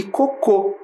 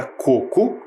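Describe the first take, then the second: First: "cocô" with the final CÔ punched higher; stress on last syllable. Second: "coco" stressed on CO, second syllable weak; stress on first syllable. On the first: Teacher contrasting two words for pupils, "cocô" stressed on last syllable. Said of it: "tem acento lá na última sílaba". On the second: Teacher contrasting two words for pupils, "coco" stressed on first syllable. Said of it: "que não tem acento". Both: Shown as a demonstration.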